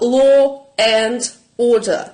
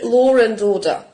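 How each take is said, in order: First: No r sound links the first two words. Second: An r sound links the first two words.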